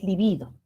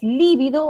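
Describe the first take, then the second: First: Libido as li-BI-do; middle-syllable stress. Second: Lívido as LI-vi-do, punched on LI; first-syllable stress. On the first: Teacher unsure of the accent, libido stressed li-BI-do. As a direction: lean on BI in libido. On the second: Teacher unsure of the accent, lívido stressed LI-vi-do. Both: Shown as a demonstration. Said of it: "si es lívido o es libido".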